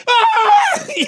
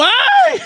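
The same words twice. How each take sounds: First: Scream as demo. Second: High, loud laughing yelp; scream while falling. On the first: Shown as a demonstration. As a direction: shriek it as you let go. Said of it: "Así grité". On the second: Retold or imitated. Kid lets go of the branch and screams, high laughing yelp. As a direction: let out a shrill yelp as you drop. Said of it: "Me suelto y grito".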